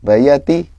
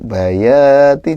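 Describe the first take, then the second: First: The 'ya' syllable is kept short. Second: The 'ya' syllable is held somewhat long. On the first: The speaker calls it wrong. "jangan bayati ya" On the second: The speaker calls it right. "Ya-nya agak panjang"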